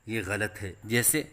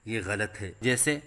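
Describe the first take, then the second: The two takes are said the same way.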